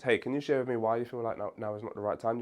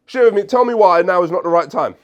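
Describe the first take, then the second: First: Softer, curious and collaborative question; soft, gentle ask. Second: Loud, high, pushy demand; forceful demand. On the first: Coach to client, the soft collaborative way to ask. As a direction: invite them to open up, gently. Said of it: "Your tone here is very important". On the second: Coach showing the wrong, combative way to ask. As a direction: bark it like an order. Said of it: "You can't just say". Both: Shown as a demonstration.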